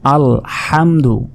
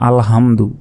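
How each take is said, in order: First: The h is a deep, throaty breathy sound. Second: The h is a light, ordinary breathy sound. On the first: It means praise. The speaker calls it right. "এখানে বড় হা রয়েছে" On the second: It means being destroyed. The speaker calls it wrong. "আমরা ছোট হার উচ্চারণ করি"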